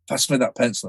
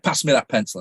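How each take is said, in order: First: It is said with less energy. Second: It is said with the most energy.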